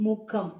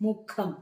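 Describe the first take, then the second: Both takes have the same delivery.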